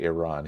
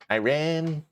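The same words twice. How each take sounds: First: The word has the speaker's ordinary pronunciation. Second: The word has an imitated, put-on pronunciation. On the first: This is not how the imitated person says it. "he wouldn't say Iran" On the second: This is how the imitated person says it. "He would say Iran"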